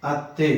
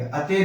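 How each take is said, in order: First: अत्ते with a held double tt; doubled t. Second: अते with one light t, no doubling; wrong single t. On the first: Teacher repeats the correct अत्ते for mother-in-law. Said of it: "ये अत्ते है". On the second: Teacher shows learners the wrong single-t अते. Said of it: "अते नहीं बोलेंगे". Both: Shown as a demonstration.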